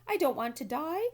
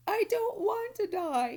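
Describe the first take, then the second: First: Higher and loud, terrified; frightened piglet screaming; panicked scream. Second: Much higher, loud, slow tearful wail; a sobbing piglet's howl; bursting into tears. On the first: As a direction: shriek it in panic. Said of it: "screamed Wilbur". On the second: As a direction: wail it through sobs. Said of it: "Wilbur burst into tears". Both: A narrator's reading.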